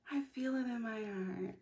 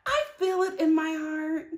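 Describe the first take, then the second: First: Much softer, heartfelt murmur; tender soft repeat; dreamy hush. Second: Said in the usual way. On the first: Shown as a demonstration. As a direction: say it softly to yourself.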